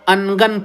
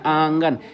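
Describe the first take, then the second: First: The n is a full consonant, not nasal. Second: The n is nasalized through the nose. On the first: The speaker calls it wrong. "ऐसा नहीं ना कि हम अनगन पढ़ रहे हैं" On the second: The speaker calls it right. "नाक में आवाज जा रही है"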